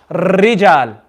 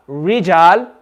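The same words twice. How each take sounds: First: "rijal" with too much trill; over-roll the r in "rijal"; overdone trill. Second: "rijal" with a curled English R. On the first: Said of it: "say it too much". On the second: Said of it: "like the English letter". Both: Shown as a demonstration.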